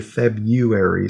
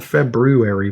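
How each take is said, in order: First: FEBRUARY without the first r, Feb-yoo-ary; February as people say it. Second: FEBRUARY with both r's, Feb-roo-ary; February as spelled. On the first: Showing co-host common speech, February as FEB-yoo-air-ee. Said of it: "but people say February". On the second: Showing co-host the spelling, February as FEB-roo-air-ee. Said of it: "it's spelled February". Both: Shown as a demonstration.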